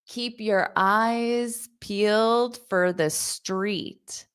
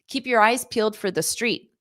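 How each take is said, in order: First: The sentence is spoken slowly. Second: The sentence is spoken quickly. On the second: "I'll say it fast"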